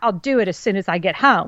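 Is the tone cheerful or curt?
curt. It is said in a flat, curt tone.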